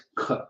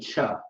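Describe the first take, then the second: First: The sound is said the Hebrew way. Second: The sound is said like English ch. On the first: The speaker calls it right. "This is Hebrew. It's not cha. It's ch" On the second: The speaker calls it wrong. "They may say cha. This is not English"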